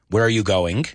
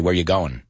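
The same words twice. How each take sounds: First: The final G of going is clearly pronounced. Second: The final G of going is dropped. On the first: "some people say, I just want to say going" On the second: "But Americans, we'd say"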